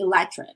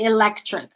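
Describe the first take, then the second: First: The C sound is dropped. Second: The C sound is clearly pronounced. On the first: The speaker calls it right. "I just say electric" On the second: The speaker calls it wrong. "but I don't say electric"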